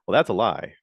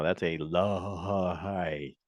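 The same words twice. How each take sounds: First: Said in the usual way. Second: "That's a lie" stretched very slow, each word leaned on; drawn-out emphatic "That's a lie". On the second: Shown as a demonstration. Calling out the dealership's ad, slow and pointed "That's a lie". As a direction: drag out "That's a lie" like a verdict. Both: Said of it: "I'm just gonna say it right now".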